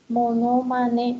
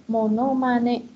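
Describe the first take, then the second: No difference in how they are said.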